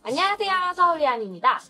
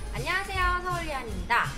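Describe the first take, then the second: First: The voice is heard with background noise removed. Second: Music and outside noise are heard behind the voice. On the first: "똑같은 상황에서 음성 포커스 모드로 바뀌었어요" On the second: "지금은 음악 모드로 어, 녹화를 하고 있습니다. 지금 현재 음악도 나오고 바깥에 소리도 들려오고 있는데"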